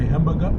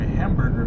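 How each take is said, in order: First: The final 'er' sound is dropped or weakened. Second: The final 'er' sound is fully pronounced. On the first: "they don't really enunciate that that E R" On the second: "he wouldn't say a burger or a hamburger"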